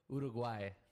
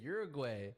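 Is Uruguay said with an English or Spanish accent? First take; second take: Spanish; English. First: It is said with a Spanish accent. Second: It is said with an English accent. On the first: A native speaker from there says it this way. "She says it like that" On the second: This is the speaker's own usual way. "I just say Uruguay"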